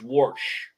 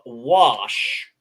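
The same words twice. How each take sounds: First: The word is said with an added R sound. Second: The word is said without any R sound. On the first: "the way I say it, which is wash" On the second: "You have wash"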